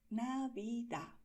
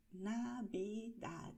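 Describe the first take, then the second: First: Navidad slow, ending on a with no d; final d dropped. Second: Navidad slow with a light d at the end; final d sound. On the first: Teacher showing regional Navidad without the d. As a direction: let the d of Navidad vanish. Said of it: "esta D final se ignora". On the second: Teacher showing the final d of Navidad. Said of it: "terminamos con el sonido de la D". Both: Shown as a demonstration.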